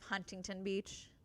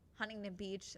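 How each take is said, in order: First: Every sound is said in full. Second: Some sounds are dropped from the middle. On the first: This is the standard way to say it. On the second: This is how locals say it.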